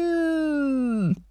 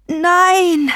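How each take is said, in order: First: Long, drawn-out falling roar, held back in volume; raging animal roar. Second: High, loud, falling cry; roared no. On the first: Grandfather's voice turning into an animal, roaring. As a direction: stretch the word into a beast's distant howl. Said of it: "Dann verwandelte sich die Stimme in das Brüllen eines wütenden Tieres". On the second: Possessed grandfather fighting back upstairs, roaring. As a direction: roar it out in protest. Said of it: "Grams brüllte". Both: A narrator's reading.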